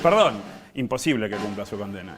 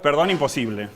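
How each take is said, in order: First: The pause comes right after perdón. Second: The pause comes right after imposible.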